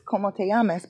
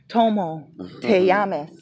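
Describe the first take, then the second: First: The first word starts with a k sound. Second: The first word starts with a t sound. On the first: The speaker calls it right. "It is como te llamas" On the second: The speaker calls it wrong. "But what if I said Tomo te llamas?"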